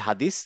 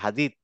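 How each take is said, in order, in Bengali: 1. শেষ ব্যঞ্জনটি একটি হিসিং 's' ধ্বনি। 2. শেষ ব্যঞ্জনটি একটি 'th' ধ্বনি। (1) "আমরা বলি হাদিস, আসলে হাদিস না" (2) "এটা হাদিত"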